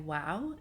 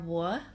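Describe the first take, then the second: First: The surname is said like 'wow'. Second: The surname is said like 'war'. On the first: The speaker calls it wrong. "some people mispronounce my name and say wow" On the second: The speaker calls it right. "I'm Tamara, [name]"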